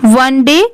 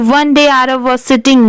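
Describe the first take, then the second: First: There is a short pause after "one day". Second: It is read straight through without a pause.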